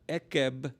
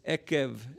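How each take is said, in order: First: The word ends with a b sound. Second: The word ends with a v sound. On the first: The speaker calls it wrong. "it's not a b" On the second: The speaker calls it right. "that's a V sound"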